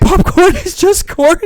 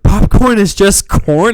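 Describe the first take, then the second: First: High, loud, slow meme chant; shouted meme line. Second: Slow, louder, laughing echo; emphatic slow echo. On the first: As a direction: belt it out as the meme. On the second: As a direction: repeat it like a catchphrase. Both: Acted. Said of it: "Like a new meme".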